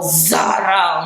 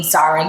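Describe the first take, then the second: First: "Zara" drawn out in mockery; exaggerated name call. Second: Said in the usual way. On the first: Shown as a demonstration. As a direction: stretch "Zara" into an overdone summons. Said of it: "You don't have to go all". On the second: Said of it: "you can just call my name".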